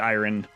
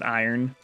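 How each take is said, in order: First: The r sound comes before the final vowel. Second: The r sound comes at the very end. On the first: This matches how the word is written. "It really should be iron" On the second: This is how Americans usually say it. "it's kind of strange that we pronounce it iron"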